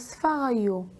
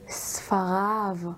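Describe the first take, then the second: First: The word ends with a non-'av' sound. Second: The word ends with an 'av' sound. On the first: The speaker calls it wrong. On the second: The speaker calls it right.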